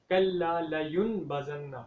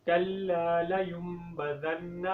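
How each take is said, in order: First: لینبذن with the ya joined to n, layunbazan; wrong pronunciation. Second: لینبذن read layumbadhan, ya joined to m; correct pronunciation. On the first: Teacher shows the mistake, nun sound in لینبذن. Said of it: "یہ غلط ہو جائے گا". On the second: Teacher models correct لینبذن with the m sound. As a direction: let لینبذن sound with m, slowly. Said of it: "اب صحیح طریقے سے پڑھیں". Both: Shown as a demonstration.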